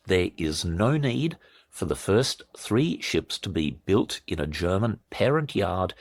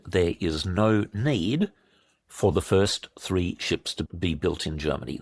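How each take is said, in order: First: Spelled out slowly and deliberately; measured, emphatic restatement for slow listeners; slow repeat. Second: Said in the usual way. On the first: Shown as a demonstration. Commentator repeating the key point for shocked listeners, slowly. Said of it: "while I say this again slowly". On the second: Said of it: "this again slowly".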